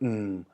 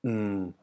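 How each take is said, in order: The two takes are said the same way.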